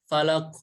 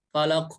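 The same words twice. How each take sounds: Both takes have the same delivery.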